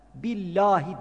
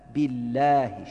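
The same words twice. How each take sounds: First: The l sound is thick and dark. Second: The l sound is thin and light. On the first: The speaker calls it wrong. "Billahi demeyelim" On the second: The speaker calls it right. "billahi ince okunur"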